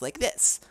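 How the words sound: It is said in a high-pitched voice.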